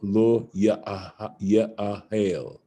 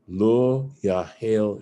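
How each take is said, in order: First: The verb is three syllables, vowel sound kept. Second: The verb is two syllables, vowel sound elided. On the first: The full form with the aleph present. "as if it was saying Ya'ahel" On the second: The aleph is dropped in the written form. "you can see how the uh would become elided into the into the Yahel"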